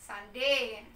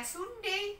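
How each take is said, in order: First: "Sunday" said "SAN-day", with an ah vowel; "Sunday" as it is read, the u sounded as "a"; correct spoken form. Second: "Sunday" said as written, "SUN-dei" with an oo vowel; "Sunday" with a spelling-based "u", pitched higher; read as spelt. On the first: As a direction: pronounce "Sunday" as "san-dey", drawn out. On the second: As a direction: say "Sunday" letter by letter Indonesian-style, "soon-day". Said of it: "tulisan dengan pengucapannya kan berbeda". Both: Shown as a demonstration.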